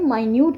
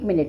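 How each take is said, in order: First: It sounds like 'my-nyoot', stress on second syllable. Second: It sounds like 'min-it', stress on first syllable. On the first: Very small. "जो असी pronounce करते हैं माइन्यूट कहते हैं" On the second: A unit of sixty seconds of time. "मिनट sixty second of time"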